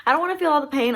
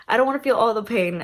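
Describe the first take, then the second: First: I don't wanna FEEL all the pain, high and pushed; emphatic protest. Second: I don't wanna feel all the pain, rattled off fast; quick repeat. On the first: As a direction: lean hard on feel. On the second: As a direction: toss it off quickly. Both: Retold or imitated. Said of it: "old school moms are like".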